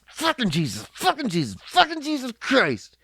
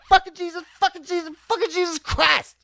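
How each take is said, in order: First: Mock angry curse, rising to a shout; hammed-up angry swearing; in anger. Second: Much higher, bright happy cursing; in happiness. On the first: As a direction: spit it out like a furious dad. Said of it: "You can say that in anger". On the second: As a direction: curse like you just won big. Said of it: "And you can say it in happiness". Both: Shown as a demonstration.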